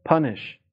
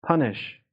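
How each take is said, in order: Both takes have the same delivery.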